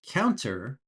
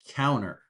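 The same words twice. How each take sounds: First: The T sound in the middle is clearly pronounced. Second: The T sound in the middle is completely dropped. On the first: "you can say counter" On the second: "Don't pronounce the T at all"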